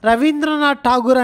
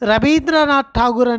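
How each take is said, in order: First: The name is said with a v sound. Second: The name is said with a b sound. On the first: This is how speakers of the local language say it. "అని మనం అంటే" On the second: This is how Bengali speakers say it. "అని వాళ్ళు అంటారు ... వా అనేది లేదు వాళ్ళ దాంట్లో"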